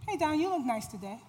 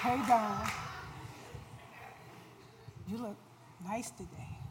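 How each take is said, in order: First: It is said in a plain, friendly tone. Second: It is said in a lustful, seductive tone.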